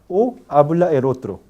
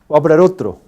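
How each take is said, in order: First: The phrase is spoken slowly. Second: The phrase is spoken quickly. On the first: "en el habla lenta" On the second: "en el habla rápida"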